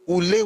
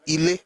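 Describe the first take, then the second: First: The word begins with an 'oo' vowel. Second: The word begins with an 'ee' vowel. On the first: This is the central and eastern Yoruba form. "The ones in the central and eastern Yoruba use U" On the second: This is the northern Yoruba form. "they will call it I"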